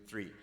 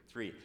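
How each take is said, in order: Both takes have the same delivery.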